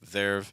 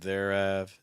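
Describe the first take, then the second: First: It is contracted into one syllable. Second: An extra vowel makes it two syllables. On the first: The speaker calls it right. "They'll say like there've" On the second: The speaker calls it wrong. "we're kind of adding an extra vowel in there"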